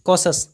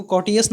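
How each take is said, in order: First: कॉशस said kaw-shus with a sh sound; right way. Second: कॉटियस said kaw-ti-us with a t sound; wrong way. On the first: Teacher shows students कॉशस said as kaw-shus. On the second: Teacher warns students against कॉटियस, said kaw-ti-us. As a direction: show the mistake as kaw-ti-us. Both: Shown as a demonstration. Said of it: "इसको कॉटियस ना पढ़ें".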